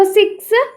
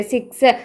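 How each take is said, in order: First: six lifted high and held, the word six spotlighted; stress on six. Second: Said in the usual way. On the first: Shown as a demonstration. Teacher highlighting the six in physics, stressed high. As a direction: hit six high so students hear six. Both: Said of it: "അവിടെ six എന്ന് pronounce ചെയ്യുന്നില്ലേ?".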